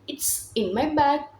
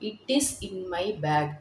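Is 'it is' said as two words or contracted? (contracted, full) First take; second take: contracted; full. First: It is joined into one short word. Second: It is said as two separate words. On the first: "we can say it's in my bag அப்படின்ற மாதிரி short sentence" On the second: "தனித்தனியா சொல்லாம"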